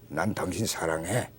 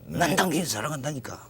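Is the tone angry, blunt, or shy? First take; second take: blunt; angry. First: It is said curtly, in a flat blunt tone. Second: It is said angrily, with an irritated tone. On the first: "무뚝뚝하게" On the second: "화가 나가지고 하는"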